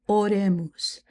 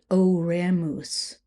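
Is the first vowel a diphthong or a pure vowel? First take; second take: pure vowel; diphthong. First: The first vowel is a single pure vowel. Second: The first vowel glides as a diphthong. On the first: The speaker calls it right. "It's oremus" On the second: The speaker calls it wrong. "we don't want diphthongs. We're not going to say oremus"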